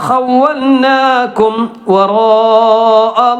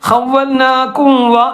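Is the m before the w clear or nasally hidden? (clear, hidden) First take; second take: clear; hidden. First: The m is pronounced clearly with closed lips. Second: The m is hidden and nasalized into the w. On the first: The speaker calls it right. "മീം വ്യക്തമാക്കണം" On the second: The speaker calls it wrong. "അപ്പൊ അത് ഒരു മറച്ച് മണിക്കുന്ന പോലെ ആകും"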